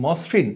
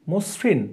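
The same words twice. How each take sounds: First: Said in the usual way. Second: "মসৃণ" as mos-rin, closed o, pitched higher; teacher's model "মসৃণ", first vowel closed to o; closed-o pronunciation. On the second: Shown as a demonstration. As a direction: say "মসৃণ" with a rounded o and dental s. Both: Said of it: "উচ্চারণ হবে কি?".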